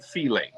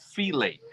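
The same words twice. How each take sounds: First: Fillet repeated as fee-lay, dropping off at the end; his own fillet. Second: Fillet said as fee-lay, Louisiana style, trailing off softly; his own fillet. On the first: Host from Louisiana repeats his fillet for chat, fee-lay. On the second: Fishing host tells chat how he says fillet, fee-lay. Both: Shown as a demonstration. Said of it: "That's how I say it".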